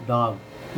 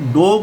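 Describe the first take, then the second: First: The vowel is an open 'aa' sound. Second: The vowel is a closer 'o' sound. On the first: The speaker calls it right. "ये चांद वाला बिंदु आ वाला vowel आएगा" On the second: The speaker calls it wrong. "डॉग को हम डॉग नहीं बोलेंगे"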